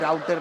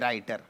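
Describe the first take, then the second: First: The first vowel sounds like 'ow'. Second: The first vowel sounds like 'eye'. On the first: The speaker calls it wrong. "राउटर नाही" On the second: The speaker calls it right. "रायटर असतं ते"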